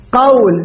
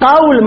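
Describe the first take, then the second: First: "قول" as qawl, with an aw glide; diphthong shown. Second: "قول" with a long pure oo vowel; contrasted vowel. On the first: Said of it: "قول أيضًا لين". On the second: Teacher shows students the wrong vowel, "قول" said as quul. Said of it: "مو قول". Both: Shown as a demonstration.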